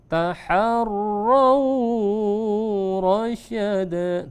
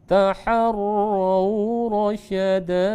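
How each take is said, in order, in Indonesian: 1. Suku kata 'raw' dibaca panjang. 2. Suku kata 'raw' dibaca pendek. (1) "Jangan sampai ditarik. ... Tidak boleh" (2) "Tapi kita baca"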